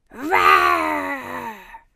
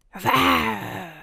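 First: Louder growling roar. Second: Roar. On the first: The roaring child growls again, louder this time. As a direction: roar it out hard. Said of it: "een harde grom". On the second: A hidden child roars from the corner of the classroom. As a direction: growl like a beast. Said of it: "een brul". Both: A narrator's reading.

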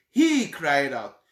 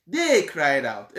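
First: "He" drawn out and stressed, then falling. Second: "They" drawn out and stressed, then falling. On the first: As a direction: lean slowly on the word "He". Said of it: "Why is Luke saying he cried out". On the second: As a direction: lean slowly on the word "They". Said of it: "mark this. Matthew said". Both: Shown as a demonstration.

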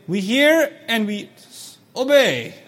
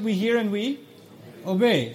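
First: Slow, each word clear; deliberate careful recitation; clear obey. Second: Said in the usual way. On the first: Shown as a demonstration. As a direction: spell out "We hear and we obey" so no syllable hides. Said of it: "Hear me again". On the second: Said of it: "supposed to say what?".

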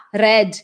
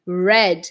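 First: RED with a hard, uncurled R; Eastern European R. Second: RED with a rounded English R; tongue-curl R. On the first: Retold or imitated. Teacher imitates Eastern Europeans, hard R. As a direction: start RED on a strong R. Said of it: "Eles vão falar". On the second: Shown as a demonstration. Teacher models red, curled R. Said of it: "dá essa voltinha".

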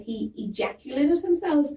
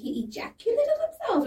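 First: Said in the usual way. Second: HE EJACULATED HIMSELF pitched right up as a question; questioning the audience. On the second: Retold or imitated. Comic replaying an onstage slip, EJACULATED HIMSELF as a high, questioning line. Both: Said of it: "I questioned the audience".

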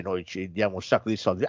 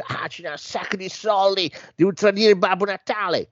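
First: Said in the usual way. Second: Put-on high English-accented elf reply. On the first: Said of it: "questa azienda dice". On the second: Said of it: "che è un tizio inglese".

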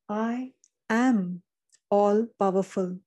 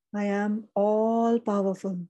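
First: Said in the usual way. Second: Slow, drawn-out I am all powerful with all leaned on; stress on all. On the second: Shown as a demonstration. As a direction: linger and press the word all. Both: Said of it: "emphasis on all".

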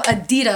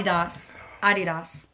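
First: Adidas said as "uh-DEE-dus"; American pronunciation. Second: Adidas as "AH-dee-das", lower; corrected pronunciation. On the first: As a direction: stress the middle of Adidas. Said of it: "So instead of Adidas". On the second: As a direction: open the first A of Adidas and stress it. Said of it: "instead of Adidas". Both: Shown as a demonstration.

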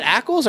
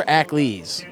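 First: "Ackles" ending in a short -ulz. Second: "Ackles" ending in a long -leez. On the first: Asking co-host how the actor's surname goes, Ackles said ACK-ulz. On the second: Offering co-host the other surname option, Ackles said ACK-leez. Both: Shown as a demonstration. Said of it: "Is it Ackles or Ackles?".

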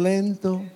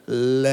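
First: Said in the usual way. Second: LENTO stretched very long and low; drawn-out lento. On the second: Shown as a demonstration. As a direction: drag out the first vowel of "lento". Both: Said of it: "Díganlo bien".

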